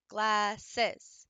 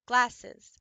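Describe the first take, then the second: First: Said in the usual way. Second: "Glasses" said loud, syllables tapped apart. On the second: Shown as a demonstration. Teacher showing students how to tap syllables, loud. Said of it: "There's the three".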